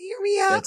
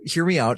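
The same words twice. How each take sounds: First: The voice is pitched as high as possible. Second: The voice is at its normal pitch.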